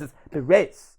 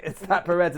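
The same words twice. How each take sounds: First: Perez in a put-on Spanish accent. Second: Perez said without a Spanish accent; plain English Perez. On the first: Podcast guest mocking corrections of his Spanish, Spanish-accented Perez. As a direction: say "Perez" as a Spanish speaker would. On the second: Podcast guest showing the accent he lacks, plain English Perez. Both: Shown as a demonstration. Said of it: "say it in a Spanish accent".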